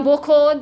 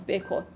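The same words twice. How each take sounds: First: بکن said "bokon", first vowel o; zamme pronunciation. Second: بکن said "bekon", first vowel e; kasre pronunciation. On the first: Teacher showing how some people say it, بکن with o: "bokon". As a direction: open بکن with a rounded "bo". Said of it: "بعضیا با ضمه". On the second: Teacher showing how others say it, بکن with e: "bekon". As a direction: open بکن with a short "be". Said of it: "بعضیا با کسره". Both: Shown as a demonstration.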